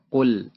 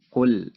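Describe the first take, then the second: No difference in how they are said.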